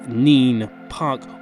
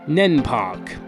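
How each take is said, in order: First: The first word has a long 'ee' vowel. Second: The first word has a short 'e' vowel. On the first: The speaker calls it right. "it's so obviously Neen" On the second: The speaker calls it wrong. "or if you're from Northampton"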